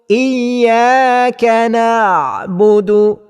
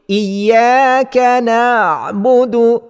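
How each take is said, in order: Both takes have the same delivery.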